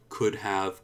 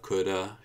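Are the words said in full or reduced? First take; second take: full; reduced. First: Both words are said fully and separately. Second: The words blend into one reduced form.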